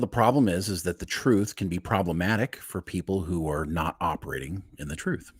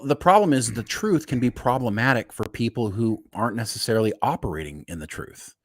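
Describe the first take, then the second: First: It is said in a dramatic movie voice. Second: It is said in his normal speaking voice.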